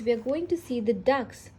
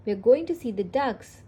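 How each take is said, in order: First: Said in the usual way. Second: Sung, lightly sing-song, louder storybook line; half-sing it as Peppa, louder. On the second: A narrator's reading. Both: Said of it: "sings Peppa".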